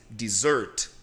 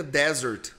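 First: "dessert" stressed on the second syllable. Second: "desert" stressed on the first syllable. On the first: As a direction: say des-SERT, low and weighted on the last syllable. ("dessert" com a segunda sílaba tônica) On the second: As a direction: say DE-sert, hitting the opening syllable. ("desert" com a primeira sílaba tônica) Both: Shown as a demonstration. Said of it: "a segunda sílaba é a sílaba tônica".

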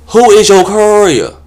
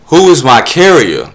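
First: Much higher, loud camp voice; mock prissy guy. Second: "carrier" said properly, slow and loud; corrected word. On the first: Solicitor repeating his name, high and camp. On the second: Shown as a demonstration. Comic correcting the solicitor, slow and loud. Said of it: "That's what you're trying to say".

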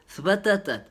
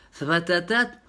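First: Zbatatat said as a stated word, falling tune; Moroccan word. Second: Zbatatat asked with a rising tune; questioning word. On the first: Speaker names zbatatat for listeners, stated. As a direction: say zbatatat plainly, ending down. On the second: Speaker questions the word zbatatat, rising. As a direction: ask Zbatatat back, ending up. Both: Shown as a demonstration. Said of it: "Y esto es zbatatat".

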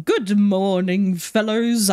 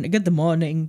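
First: Slow, drawling hello with a lift on the last word; odd drawn-out greeting. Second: Said in the usual way. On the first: Pretend. Greeting the ambulance drivers, oddly drawn out. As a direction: stretch the greeting out in a silly way. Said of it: "I don't know why I'm speaking like that". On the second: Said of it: "why I'm speaking like that".

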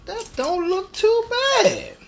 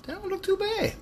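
First: High, loud, drawn-out TOO BAD; "too bad" sung out high and slow for emphasis; emphatic repeat. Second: Said in the usual way. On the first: Real, not acted. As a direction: stretch TOO BAD out slowly, pitched way up. Repeats his verdict for emphasis.

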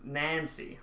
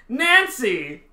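First: Said in the usual way. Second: "Nancy" called high and loud in a put-on British accent. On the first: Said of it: "came to saying Nancy". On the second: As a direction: shout "Nancy" as a British stage actor. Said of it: "I'd be like".

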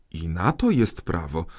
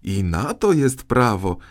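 First: Said in the usual way. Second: Higher, louder cry of glee; delighted exclamation. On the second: A narrator's reading. Justice minister gleefully finding a law for his arrest, delighted. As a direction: call it out in triumph. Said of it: "zawołał uradowany minister".

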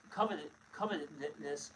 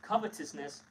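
First: Slow, halting start on "covetousness", cut off and restarted before it comes out whole; stumbling over the word. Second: "covetousness" said through in one go, no restart; clean retake. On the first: Reading scripture aloud to his co-host, stumbling on the word. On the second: Rereading the verse to his co-host, the word now said cleanly. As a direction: land "covetousness" cleanly this time. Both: Real, not acted. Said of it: "I'm having a hard time saying these words".

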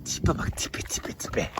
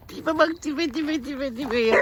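First: Soft doting whisper. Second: Much higher, softer doting coo. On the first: Man whispers over his foal's face, soft doting whisper. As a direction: hush it like a secret to the foal. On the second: Man dotes on the foal's face, high soft baby talk. Cooing at a donkey foal. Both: Real, not acted.

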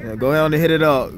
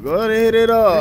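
First: Said in the usual way. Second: Hyped-up call. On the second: Real, not acted. Urging friend on.

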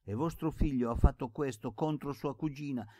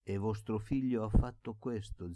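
First: Higher and louder indignant accusation; rising anger. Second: Said in the usual way. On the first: Acted. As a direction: let the anger break through. Pasca accusing the uncle.

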